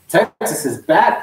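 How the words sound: It sounds firm and assured, full of conviction. The team's return is truly believed. "saying it with confidence"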